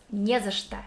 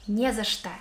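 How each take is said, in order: Both takes have the same delivery.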